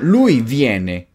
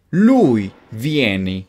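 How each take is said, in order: First: "viene" ending in an e sound; corrected ending. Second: "vieni" ending in an i sound; mistaken ending. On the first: Teacher corrects the slip for learners, "viene" ending in e. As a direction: slowly say "viene" with final -e. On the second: Teacher slips on the verb for learners, "vieni" ending in i. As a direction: slowly say "vieni" with final -i. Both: Shown as a demonstration. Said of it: "Perdón, lui viene".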